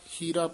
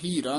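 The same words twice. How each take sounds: First: The word is said softly and lightly. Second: The word is said forcefully and heavily. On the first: The speaker calls it right. "ਪੋਲਾ ਹੀ ਪਦ ਉਚਾਰਨ ਕਰਨਾ" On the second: The speaker calls it wrong. "ਹੀਰਾ ਨਹੀਂ ਕਹਿਣਾ"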